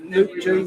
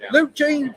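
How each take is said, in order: First: Said in the usual way. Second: High mock call. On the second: Shown as a demonstration. Reading chat name, then redoing it.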